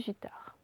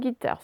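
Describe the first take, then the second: First: The word begins with a soft J sound. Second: The word begins with a hard G sound. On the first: "sinon ça fait" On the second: "Elle peut faire G devant E, I, Y, mais il faut lui rajouter le U"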